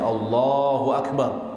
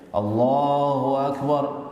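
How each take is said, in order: First: The phrase is said short and plain. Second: The phrase is said slowly and drawn out. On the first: This is how the imam says it. "normal saja" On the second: This is how the announcer behind the imam says it. "Dia biasanya agak lebih panjang"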